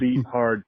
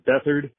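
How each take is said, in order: First: The t and h are said as separate sounds. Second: The t and h merge into one th sound. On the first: The speaker calls it right. "I, like you, am a beat hard" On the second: The speaker calls it wrong. "those who contend that his last name is Beathard"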